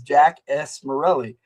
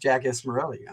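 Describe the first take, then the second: First: The name is said at a normal pace. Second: The name is said quickly, running together. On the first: "his file name is" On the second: "if you say it fast"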